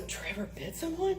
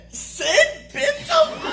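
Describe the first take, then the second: First: Hushed, higher-pitched dread; mock concern in a small raised voice; worried question. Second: Very high, loud, slow disbelief; acted astonishment, squealed and drawn out; incredulous hilarity. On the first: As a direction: ask softly, fearing bad news. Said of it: "he's going, "You know, this could be bad". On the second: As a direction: shriek the question, breaking into laughter. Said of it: "he burst out laughing".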